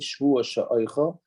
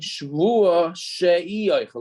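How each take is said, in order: First: The vowel before oichel is short and joined. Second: The vowel before oichel is drawn out. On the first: An oath that I will eat. "it doesn't say shvua sha'oichel" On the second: An oath that I will not eat. "he sort of extended that aleph a little bit"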